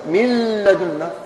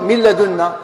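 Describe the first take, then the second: First: "من لدنا" as "mil-ladunna" with a held l; doubled lam. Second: Said in the usual way. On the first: Shown as a demonstration. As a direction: melt the n of "من لدنا" into a long double l. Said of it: "الحرف الثاني مشدد". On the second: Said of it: "وش ننطق".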